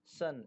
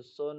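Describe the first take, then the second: First: सन with an uh sound; uh vowel. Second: सोन with an oh sound; wrong oh vowel. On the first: Teacher reading out "son" for learners, सन with uh. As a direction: say सन with uh, not oh. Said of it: "ओ का तलफ़ुज़ देखिए आ से होता है". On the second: Teacher warning against a misreading, सोन with oh. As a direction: say सोन with oh instead of uh. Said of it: "इसको सोन नहीं पढ़ेंगे". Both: Shown as a demonstration.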